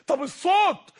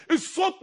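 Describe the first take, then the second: First: الصوت said with a falling tune. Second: الصوت said higher with a rising tune. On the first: Preacher showing the crowd how tone shifts, الصوت falling. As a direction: let الصوت drop at the end. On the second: Preacher showing the crowd how tone shifts, الصوت rising. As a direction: lift الصوت up like a question. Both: Shown as a demonstration. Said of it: "نبرات الصوت".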